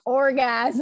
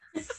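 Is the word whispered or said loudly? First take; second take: loudly; whispered. First: The word is said out loud. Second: The word is whispered softly.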